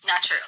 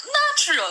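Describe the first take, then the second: First: Said in the usual way. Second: Natural! shouted high and loud with a laugh. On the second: Shown as a demonstration. (sigaw na natural! habang tumatawa) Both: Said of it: "kung malakas ba yung boses ko".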